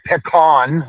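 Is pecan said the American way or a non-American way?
American. The word is said with an American pronunciation. "I know you Americans say pecan, which sounds a little snooty"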